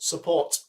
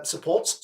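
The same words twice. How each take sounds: First: Said in the usual way. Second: "supports" with a puzzled questioning lilt; wrong word form. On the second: Real, not acted. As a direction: catch yourself saying "supports" and question it.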